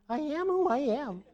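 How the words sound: It is said in a high-pitched voice.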